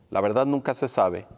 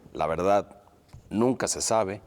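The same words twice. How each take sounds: First: There is no pause after verdad. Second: There is a short pause after verdad.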